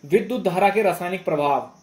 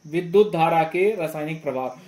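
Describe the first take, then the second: No difference in how they are said.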